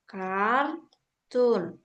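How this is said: It is pronounced the English way. "Bahasa Inggrisnya kan gini ya"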